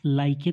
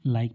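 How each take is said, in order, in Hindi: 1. आख़िरी e k के बाद बोला जाता है। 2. यह शब्द सादे k की आवाज़ पर खत्म होता है। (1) "इसे हम लाइके तो नहीं पढ़ते" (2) "लाइक पढ़ते हैं"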